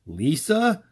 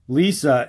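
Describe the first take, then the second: First: The voice rises at the end. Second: The voice falls at the end.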